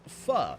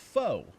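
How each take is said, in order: First: The word has a short 'fuh' vowel. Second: The word rhymes with 'go'. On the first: The speaker calls it right. "it's pronounced pho" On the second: The speaker calls it wrong. "they probably say it like most Americans, which is faux"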